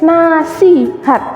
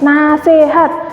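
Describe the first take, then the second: First: The second vowel sounds like 'i'. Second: The second vowel sounds like 'e'. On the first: The speaker calls it right. "Nasi, bukan nase" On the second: The speaker calls it wrong. "Udah mantep banget, nasihat. Padahal salah"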